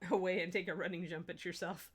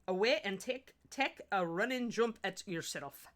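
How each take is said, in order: First: It is said in the speaker's normal accent. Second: It is said in a Scottish accent.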